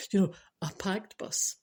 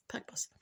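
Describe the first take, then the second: First: Said in the usual way. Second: Breathy whispered repeat of packed bus; whispered aside. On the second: Shown as a demonstration. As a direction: drop to a whisper for the echo.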